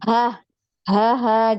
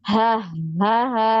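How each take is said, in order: First: The syllables are separated by breaks. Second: The syllables are joined without breaks.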